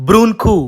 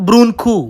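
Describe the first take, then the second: The two takes are said the same way.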